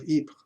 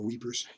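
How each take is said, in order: First: The name is said with a French pronunciation. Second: The name is said like English 'weepers'. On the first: "I'm trying to use a French pronunciation" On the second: "or weepers"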